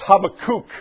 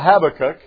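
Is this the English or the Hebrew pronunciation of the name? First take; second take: Hebrew; English. First: The name is said the original Hebrew way. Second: The name is said the usual English way. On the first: "The real pronunciation in the Hebrew" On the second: "that we call Habakkuk"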